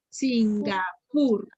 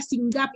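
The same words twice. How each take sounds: First: "Singapur" in measured syllables, final PUR stressed. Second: "Singapur" said as sin-GA-pur; stress wrongly on GA. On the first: Teacher confirming the right answer, "Singapur" split with PUR stressed. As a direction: sound out "Singapur", landing on the last syllable PUR. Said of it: "es una palabra aguda". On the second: Teacher showing why a guess is wrong, "Singapur" stressed on GA. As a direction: move the stress of "Singapur" onto the middle GA. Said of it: "Si fuera gas sería". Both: Shown as a demonstration.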